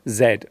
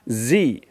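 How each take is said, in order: First: It is said the British way, as zed. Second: It is said the American way, as zee.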